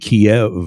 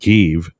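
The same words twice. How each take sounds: First: The name is said the familiar English way. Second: The name is said the native Ukrainian way. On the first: This is the version people have long used. The speaker calls it wrong. "how many years have we been saying Kiev?" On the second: This is how the name really is. The speaker calls it right. "always been Kiev"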